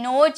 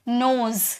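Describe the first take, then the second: First: The word ends with a j sound. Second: The word ends with a z sound. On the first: The speaker calls it wrong. "ज भी नहीं, नोज नहीं" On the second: The speaker calls it right. "ज के नीचे देखिए बिंदी है ना"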